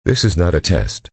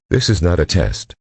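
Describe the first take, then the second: No difference in how they are said.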